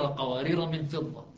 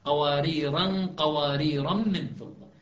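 First: قوارير ends on a short vowel with no added alif; reading without alif. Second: قواريرا drawn out slowly with a final long a; reading with alif. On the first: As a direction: say قوارير plainly, no tanween. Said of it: "يقرؤون قوارير". (قوارير بلا ألف) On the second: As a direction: stretch قواريرا, ending on the alif. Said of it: "وأولئك لا يقرؤون قواريرا". (قواريرا بمد الألف ببطء) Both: Shown as a demonstration.

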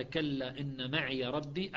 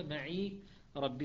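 First: "معي" as "maʕiya" before ربي, slow; Hafs recitation. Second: "معي" as "maʕi", ya silent, slow; Shu'ba recitation. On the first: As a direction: recite voicing the ya. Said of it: "قال". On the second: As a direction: recite with short ya. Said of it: "وشعبة". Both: Shown as a demonstration.

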